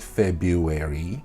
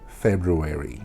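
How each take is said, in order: First: The first r sound is left out. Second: The first r sound is clearly pronounced. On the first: The speaker calls it wrong. "It is not February" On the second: The speaker calls it right. "There is an R. Do not let go of the R"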